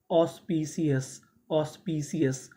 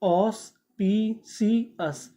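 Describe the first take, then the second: First: Said in the usual way. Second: Slow, syllable by syllable ऑस्पिशियस; drawn-out model word. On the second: Shown as a demonstration. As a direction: stretch ऑस्पिशियस out for the class. (धीरे धीरे ऑस्पिशियस) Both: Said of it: "तो meaning क्या बनी?".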